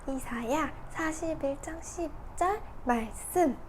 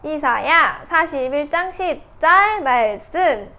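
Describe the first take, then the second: First: The phrase is read in a quiet voice. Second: The phrase is read in a loud voice. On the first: "이 주소 부분만 작은 목소리로 읽고" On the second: "큰 목소리로 한 번 더 같이 읽어볼게요"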